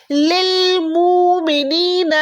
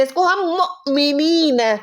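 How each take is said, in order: First: लिल मुमिनीन sung slowly, the hamza skipped; wrong reading demo. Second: मुमिनीन slowed, with a glottal catch on the hamza; reading with a catch. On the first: Teacher shows the reading nobody uses, sung slowly. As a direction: chant मुमिनीन smoothly with no catch. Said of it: "हम इसको कैसे पढ़ते हैं?". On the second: Teacher shows the right way to read मुमिनीन, with a glottal stop. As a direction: break the word with a short stop. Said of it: "हम इसको मुमिनीन नहीं पढ़ते". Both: Shown as a demonstration.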